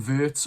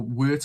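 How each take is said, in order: First: "Wirtz" with a V sound at the start; German pronunciation. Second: "Wirtz" with an English W sound at the start; English pronunciation. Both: Shown as a demonstration. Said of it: "however you want to say it".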